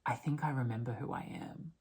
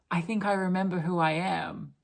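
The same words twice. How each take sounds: First: Whispered in wonder. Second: Said in the usual way. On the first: Retold or imitated. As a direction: breathe it as a soft realization. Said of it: "turns up and she goes". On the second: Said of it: "she goes".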